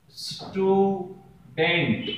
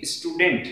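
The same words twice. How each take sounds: First: स्टूडेंट very slowly, split into स्टू… डेंट; syllable by syllable. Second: Said in the usual way. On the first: Shown as a demonstration. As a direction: hold each half of स्टूडेंट long for learners. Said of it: "इस तरीके से हम देखते हैं". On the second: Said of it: "इस तरीके से हम देखते हैं कि".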